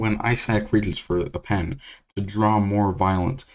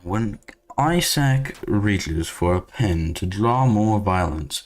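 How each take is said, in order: First: It is read in the speaker's ordinary voice. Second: It is read in a put-on announcer voice.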